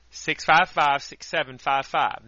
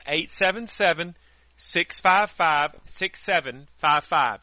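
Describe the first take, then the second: First: Said in the usual way. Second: Number said again slowly and clearly; slow, deliberate phone number read; slower repeat of the number. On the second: Shown as a demonstration. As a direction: spell out six five five, six seven five five with care. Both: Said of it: "That number again".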